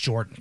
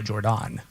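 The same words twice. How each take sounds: First: The name is said in a plain, ordinary way. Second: The name is said in a fancy-sounding way. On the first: It is the ordinary form of the name. "I thought it was just Jordan" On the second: It makes her sound fancy. "if we want to make her sound fancy, we go Jordan"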